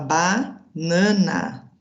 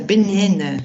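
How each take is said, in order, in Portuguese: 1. As vogais são abertas, com sotaque brasileiro. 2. As vogais são fechadas, com sotaque inglês. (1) "a gente fala banana" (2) "meio fechado assim, o som deles"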